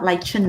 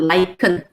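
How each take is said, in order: First: The middle consonant is a ch sound. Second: The middle consonant is a k sound. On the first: The speaker calls it wrong. "not lichen" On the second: The speaker calls it right. "It's a K sound"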